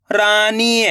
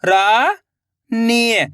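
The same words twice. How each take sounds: First: Said in the usual way. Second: Rani stretched very slowly, each sound held long. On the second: Shown as a demonstration. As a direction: drag out Rani for the learner. (रानी को बहुत धीरे खींचकर बोलें) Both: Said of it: "तो मिलके बन जाएगा".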